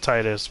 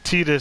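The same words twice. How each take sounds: First: The first syllable sounds like 'tie'. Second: The first syllable sounds like 'tee'. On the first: The speaker calls it right. "as opposed to Titus" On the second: The speaker calls it wrong. "Titus sounds stupid"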